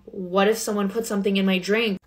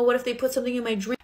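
First: Said in the usual way. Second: Higher, rushed mock-tearful panic; imitated freak-out, high and fast; mock crying. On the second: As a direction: blurt it out as if crying to mom. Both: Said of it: "And then I start crying".

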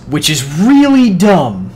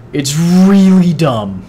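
First: Slow, higher, dragged-out scorn; sneering at a useless item; drawn-out disdain. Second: Slow, higher, dragged-out scorn; repeating the gripe even slower; drawn-out disdain. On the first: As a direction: stretch it out like it's beneath you. Complaining about the frost focus. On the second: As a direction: lean on really and drag the words out. Repeats the complaint. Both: Real, not acted.

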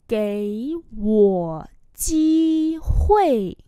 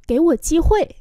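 First: Very slow, syllable by syllable; slow model reading. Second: Said in the usual way. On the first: Shown as a demonstration. Teacher modelling Chinese phrases for learners, slow and drawn-out. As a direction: stretch each syllable out for learners.

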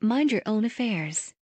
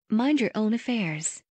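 The two takes are said the same way.

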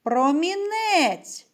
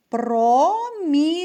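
First: Промінець called with the last syllable -нець stretched long; calling out the word. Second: Промінець slow and louder, split про - мі - нець; syllable by syllable. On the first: Teacher calling the word to find its stress, lengthened промінець. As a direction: call промінець, drawing out the stressed е. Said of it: "покличемо". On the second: Teacher repeating a word for syllable counting, slow syllabled промінець. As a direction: sound out промінець in three long, raised syllables. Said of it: "Ще раз слухайте". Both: Shown as a demonstration.

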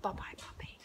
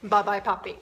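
First: Whispered bye-bye puppy. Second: Said in the usual way. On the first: Shown as a demonstration. Trainer whispering goodbye to her dog. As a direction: breathe "Bye-bye, puppy" softly. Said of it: "I say to him". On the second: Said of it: "then I can tell him".

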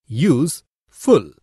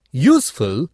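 First: "use, full" said as two separate syllables with a pause between; split into syllables. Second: Said in the usual way. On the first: Shown as a demonstration. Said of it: "is made up of two syllables". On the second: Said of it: "For example".

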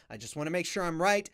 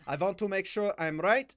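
First: Said in the usual way. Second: Lightly put-on Slavic accent; playful touch of Slavic accent; mock Eastern European accent. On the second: Repeats line in mock accent.

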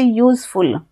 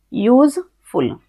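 First: Said in the usual way. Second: useful said slowly as यूज, pause, फुल; split into two syllables. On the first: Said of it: "दो शब्दों में बोलता है". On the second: Shown as a demonstration. Teacher showing students what two syllables are, useful slowly split in two. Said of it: "अब ये हमारा दो शब्दों में बोलता है".

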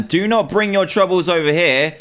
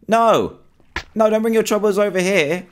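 First: Said in the usual way. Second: Higher, urgent plea; panicked pleading. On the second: Real, not acted. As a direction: beg the seeker to go away. Seeker heading towards his spot.

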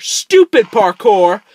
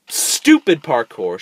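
First: High, loud, slow yell of STUPID; furious shout. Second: Slow, a bit louder, irritated mutter; annoyed grumble. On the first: Player cursing the parkour, loud high shout. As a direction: explode at the game. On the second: Player grumbling at parkour, slow and annoyed. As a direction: grit it out before exploding. First, held-back take. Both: Real, not acted.

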